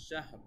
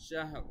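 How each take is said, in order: First: The word ends on a bare 'r' sound. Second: The same.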